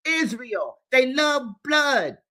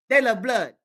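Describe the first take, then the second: First: A furious cry against the killers; angry shout. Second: Said in the usual way. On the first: Real, not acted. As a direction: spit the words out in outrage. Denouncing with a shout.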